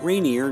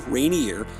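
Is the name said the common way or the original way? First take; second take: common; original. First: The name is said the usual modern way. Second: The name is said the older original way.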